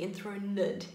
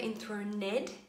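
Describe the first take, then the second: First: The final syllable has a neutral, reduced vowel. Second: The final syllable has a full, posh vowel. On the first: The speaker calls it right. "it should be enthroned. It's like a neutral sound" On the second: The speaker calls it wrong. "it's never enthroned"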